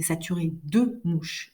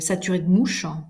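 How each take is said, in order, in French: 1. Chaque syllabe est prononcée pleinement. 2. Certains e non accentués sont avalés. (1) "non, c'est saturé de mouches" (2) "j'ai mangé les syllabes"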